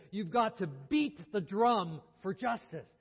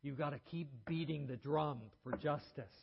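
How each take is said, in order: First: Loud, slow, emphatic repetition. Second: Hoarse. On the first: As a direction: hammer home "drum" and "justice". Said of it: "He said it again emphatically". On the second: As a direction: rasp it out hoarsely. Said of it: "and said hoarsely". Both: Retold or imitated.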